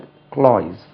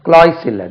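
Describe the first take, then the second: First: The word ends with a buzzing z sound. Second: The word ends with a hissing s sound. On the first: The speaker calls it right. "ஜெட்டில் முடியும்" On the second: The speaker calls it wrong.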